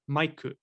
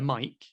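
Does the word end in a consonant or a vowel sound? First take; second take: vowel; consonant. First: The word ends with an added vowel sound. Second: The word ends in a consonant sound. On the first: "in their alphabet, it would be like maiku" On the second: "we can call it a mic in English"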